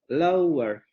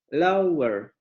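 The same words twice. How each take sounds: No difference in how they are said.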